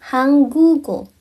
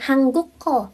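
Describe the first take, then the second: First: Slow correct hanggugo; correct pronunciation. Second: "hangguko" with a hard k sound; wrong pronunciation. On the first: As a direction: stretch "hanggugo", g not k. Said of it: "tapi hanggugo". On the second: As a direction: say "hangguko" with a K, the mistake. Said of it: "bukan hangguko". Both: Shown as a demonstration.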